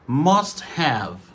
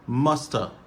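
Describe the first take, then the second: First: Both words are said fully and separately. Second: The words blend into one short reduced word.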